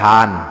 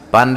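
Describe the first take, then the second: First: The word begins with an h sound. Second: The word begins with a p sound.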